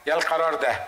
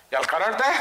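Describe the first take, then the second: First: يا القرار ده falling; القرار stressed, then falling; second choice. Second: يا القرار ده rising at ده; ده lifted, unfinished; first choice. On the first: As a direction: close on the second option. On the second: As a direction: hold the first option up. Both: Shown as a demonstration. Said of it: "يا دي يا دي".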